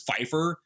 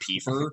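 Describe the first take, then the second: First: The name begins with an F sound. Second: The name begins with a P sound. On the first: This is the character's actual name. The speaker calls it right. "her name is Pfeiffer" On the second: This is how the name was first misread. The speaker calls it wrong. "I thought it said Piefer"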